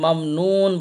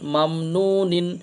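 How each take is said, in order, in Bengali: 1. শব্দটি শেষ হয়েছে শুধু "n" ধ্বনিতে। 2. শব্দটি শেষ হয়েছে যুক্ত "-in" দিয়ে।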